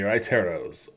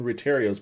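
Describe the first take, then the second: First: The first syllable is said like 'ride'. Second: The first syllable is said like 'ret'. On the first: The speaker calls it right. "Okay, raiteros. Okay, okay. I feel better now" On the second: The speaker calls it wrong. "I'm definitely saying that wrong then"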